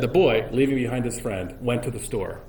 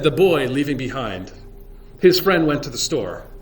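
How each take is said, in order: First: It flows without a pause after behind. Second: There is a pause after behind.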